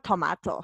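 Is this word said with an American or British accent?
British. The word is said with a British accent. "pero en el británico tomato"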